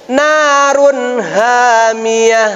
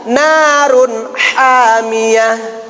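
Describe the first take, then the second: First: "Narun hamiyah" chanted slowly with the wrong ha; deliberately misplace the ha, slow recital; wrong reading. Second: "Narun hamiyah" recited slowly, ha from mid-throat; slow careful chant to imitate; model reading. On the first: Teacher reads it wrong for the judges to mark, slow chant. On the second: Teacher asks students to practise, slow recital. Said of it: "ya, praktekan". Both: Shown as a demonstration.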